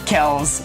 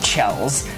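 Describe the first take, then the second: First: The name begins with a hard k sound. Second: The name begins with a ch sound. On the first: The speaker calls it right. "I know now it is pronounced that" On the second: The speaker calls it wrong. "and not Chells"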